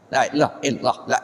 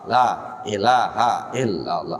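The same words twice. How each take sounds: First: It is rushed together without a controlled breath. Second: It is measured, with a controlled breath sound. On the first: The speaker calls it wrong. "Kalau hanya hilang, udah nggak terkontrol itu" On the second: The speaker calls it right. "Tapi kalau ada hanya"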